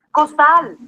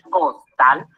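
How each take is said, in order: First: Said in the usual way. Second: "costal" en dos golpes, cos y tal, más grave; separado en sílabas. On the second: Shown as a demonstration. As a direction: separa "costal" con pausa entre sílabas. ("costal" silabeado para enseñar) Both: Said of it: "Al separarla en sílabas".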